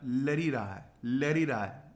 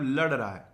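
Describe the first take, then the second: First: Village Hindi "lari raha hai" with added "i"; village dialect. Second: Said in the usual way. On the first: Shown as a demonstration. Teacher mimicking village speech for a mnemonic, rural dialect. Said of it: "गांव की भाषा बोलते हैं". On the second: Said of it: "तो मतलब लड़ रहा है".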